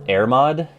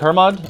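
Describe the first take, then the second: First: The name begins with a vowel, no H. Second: The name begins with an audible H sound.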